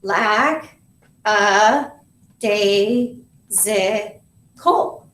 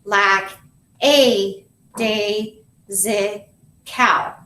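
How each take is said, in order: First: LACK, A, DAY, ZI, COL as separate beats, A as "uh"; natural vowels in "lack a day zi col", drawn apart; syllable by syllable. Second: "lack, a, day, zi, cow" in separate syllables, A as a long "ay"; spell-it-out sounding of "lack a day zi cow", full vowels, last one "cal"; thinking pronunciation. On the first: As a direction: say "lack, a, day, zi, col" as heard, pausing after each syllable. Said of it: "Let's say the syllables". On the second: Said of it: "you're gonna think". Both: Shown as a demonstration.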